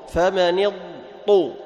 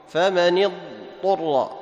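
No difference in how they are said.

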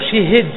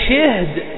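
First: The first consonant has i, the second has i. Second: The first consonant has i, the second is vowelless. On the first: "شي شي والهاء أيضا مكسور" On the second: "بسكون الهاء وكسر الأول"

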